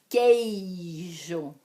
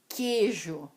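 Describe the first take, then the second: First: The first syllable has a gliding diphthong. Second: The first syllable has a single plain vowel. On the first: The speaker calls it right. "existe o ditongo" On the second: The speaker calls it wrong. "falamos demais errado"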